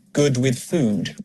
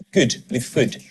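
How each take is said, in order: First: Said in the usual way. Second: "good" rhyming with "food", both short and fronted; Scottish oo vowel. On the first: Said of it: "vowels are the same". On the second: Shown as a demonstration. Coach imitating a Scottish narrator, "good" rhyming with "food". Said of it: "The narrator on the commercial is Scottish".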